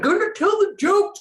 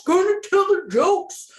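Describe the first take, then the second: First: Sing-song chant. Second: High, loud singsong chant; sing-song chant. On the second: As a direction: chant it like a happy jingle. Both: Real, not acted. Chanting about upcoming comedy shows.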